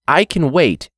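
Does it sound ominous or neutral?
neutral. It is read in a plain, neutral voice.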